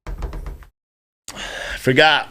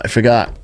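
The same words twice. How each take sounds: First: A drawn-out whispered aside to himself; slow whisper. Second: Said in the usual way. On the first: Pretend. Streamer whispering to himself after losing his train of thought, slow whisper. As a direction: breathe it out slowly as a whisper. Forgetting mid-rant, then repeats whispered.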